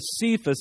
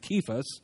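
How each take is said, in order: First: The name begins with an S sound. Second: The name begins with a K sound. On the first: The speaker calls it wrong. "as it's been popularly known" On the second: The speaker calls it right. "it's actually got a K sound"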